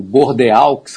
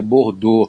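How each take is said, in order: First: Bordeaux with every written letter, "bor-de-auks"; spelling pronunciation. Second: Bordeaux reduced to "bor-dô"; French pronunciation. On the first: Expert reads the French spelling aloud, Bordeaux letter by letter. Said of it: "como se escreve em francês". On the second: Expert teaches listeners, Bordeaux the French way. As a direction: end Bordeaux on "dô", silent x. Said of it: "a gente pronuncia Bordeaux". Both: Shown as a demonstration.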